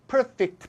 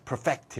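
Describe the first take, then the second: First: The stress is on the first syllable. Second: The stress is on the second syllable. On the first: It is used as an adjective. "형용사일 때는 액센트가 앞에 오고" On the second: It is used as a verb. "동사일 때는 액센트가 뒤에 오죠"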